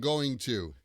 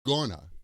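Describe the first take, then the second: First: Both words are said fully and separately. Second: The words are squeezed quickly into one short word. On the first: "usually we don't pronounce it like I am going to" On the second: "the quick pronunciation, which is gonna"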